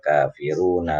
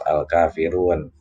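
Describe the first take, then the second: First: The word ends on a vowel, running onward. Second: The word ends on a consonant, then stops. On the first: The reading continues into the next verse. The speaker calls it right. "seharusnya dibacanya" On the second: The reading stops at this word. The speaker calls it wrong. "kalau dibaca mati waqaf"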